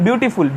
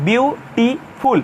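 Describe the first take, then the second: First: Said in the usual way. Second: বিউটিফুল very slowly, syllable by syllable; broken into syllables. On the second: Shown as a demonstration. Teacher shows students why the word takes "more", বিউটিফুল broken into syllables. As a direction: split বিউটিফুল into three separate beats, বিউ, টি, ফুল. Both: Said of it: "ভেঙে ভেঙে উচ্চারণ করতে হয়".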